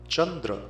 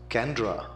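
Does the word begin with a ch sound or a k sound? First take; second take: ch; k. First: The word begins with a ch sound. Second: The word begins with a k sound. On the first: The speaker calls it right. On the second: The speaker calls it wrong.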